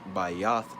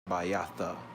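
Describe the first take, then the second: First: The word ends on the bare consonant. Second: A vowel is sounded after the final consonant. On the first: The speaker calls it right. "when you say Bayath as a house" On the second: The speaker calls it wrong. "you don't say Bayatha"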